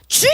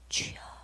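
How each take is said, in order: First: It is cried out loudly with full voice. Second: It is said quietly, as if voice is lost. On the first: Believers here are free to cry out to God. "이거 한번 해보는 겁니다" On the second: Underground believers cannot pray aloud. "그분들의 주여는 그렇게 못 나옵니다"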